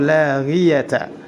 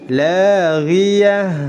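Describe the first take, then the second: First: The word ends in ta. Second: The word ends in a soft h. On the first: The speaker calls it wrong. "Tidak boleh dibaca" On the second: The speaker calls it right. "Tetap disukunkan akhir kata tersebut"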